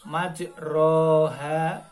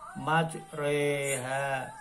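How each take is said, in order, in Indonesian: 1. Vokal setelah r adalah a terbuka. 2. Vokal setelah r condong ke e. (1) "di sana tertulis majroha, tetapi harus dibaca imalah" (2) "Jadi harus dibaca majreha"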